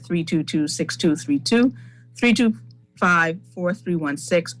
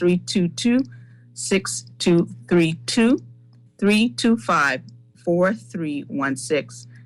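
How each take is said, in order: First: The numbers are read at a fast pace. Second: The numbers are read at a slower pace.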